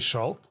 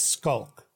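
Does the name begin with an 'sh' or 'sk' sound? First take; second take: sh; sk. First: The name begins with an sh sound. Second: The name begins with an sk sound. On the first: This is the German way of saying the name. "if you ask a German person to pronounce it just based on the letters, they will say Schalk" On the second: This is the Afrikaans way of saying the name. "the way we pronounce it is the CH becomes a K"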